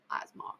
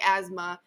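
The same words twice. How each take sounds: First: "asthma" said as "az-mah", with an open final vowel; Piggy's pronunciation. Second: Said in the usual way. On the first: Retold or imitated. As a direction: softly demonstrate "asthma" ending in a long "ah". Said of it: "'cause that's how he says".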